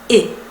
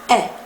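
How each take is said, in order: First: The vowel is said with a closed mouth. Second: The vowel is said with a more open mouth.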